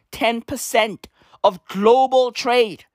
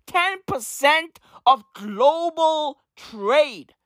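First: Said in the usual way. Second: Very slow, drawn out, each word weighed; slow emphatic. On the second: Shown as a demonstration. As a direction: stretch it out to make it sink in. Repeating the key figure for emphasis.

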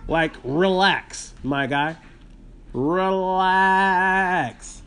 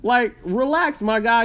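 First: Calming relax. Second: Said in the usual way. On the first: Shown as a demonstration. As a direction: stretch out "relax, my guy" gently to calm her. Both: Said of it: "tells the coworker to relax".

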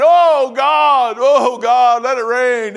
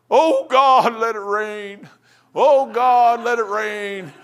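First: Loud, high mock wail to God; crying out in prayer. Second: Mock fervent prayer. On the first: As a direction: belt out an exaggerated plea to heaven. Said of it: "So I'm crying". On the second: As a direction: imitate a pleading prayer, swelling then easing. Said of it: "I'm praying".

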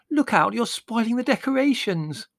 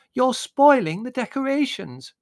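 First: High, loud wailing protest. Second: Loud, very high, drawn-out screech; scream. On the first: Margot warning them off her decorations, wailing. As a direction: wail it in distress over the damage. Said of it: "wailed Margot". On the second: Margot protesting about her decorations, screaming. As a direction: scream the complaint slowly. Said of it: "screamed Margot". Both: A narrator's reading.

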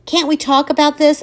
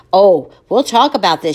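First: High, pleading question. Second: Loud, ominous promise; grim threat. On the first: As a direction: beg her to talk it over. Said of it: "I plead". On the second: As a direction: make it a threat. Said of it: "she agrees". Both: Acted.

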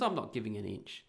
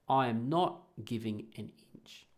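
First: Said in the usual way. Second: "I am not giving an inch" with NOT punched; firm, separated words on "not giving an inch"; emphatic refusal. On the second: Real, not acted. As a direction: spell out "I am not giving an inch" word by word, leaning on "not". Repeats it slowly for emphasis.

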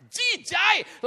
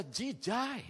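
First: High, loud cry of "jijai"; shouted, hammed-up revulsion on "jijai"; retold disgust. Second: Drawn-out, softer "jijai"; slow, restrained disgust on "jijai"; retold disgust. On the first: Repeats the disgust at full force. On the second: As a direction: stretch "jijai" slowly in distaste. Voices disgust at the poster.

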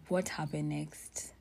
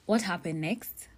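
First: Unvoiced, slow whisper; whispered to herself. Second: Said in the usual way. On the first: Real, not acted. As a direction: murmur it slowly, searching memory. Repeats question trying to remember.

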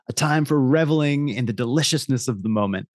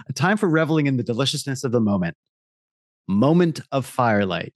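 First: Ad voiceover. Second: Fast re-read, puzzled by the copy; reading in disbelief. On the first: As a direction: linger over every word. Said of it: "I'll read that again". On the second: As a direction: reread it not believing the words. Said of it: "the copy grammatically, uh, doesn't make any sense to me". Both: Acted.

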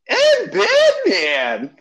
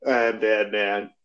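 First: High, drawn-out squeak of Batman. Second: Low, slow gravel of Batman; deep Batman voice. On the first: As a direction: stretch it out way up high. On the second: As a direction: drop low and slow as the caped hero. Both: Pretend. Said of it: "That doesn't sound very convincing".

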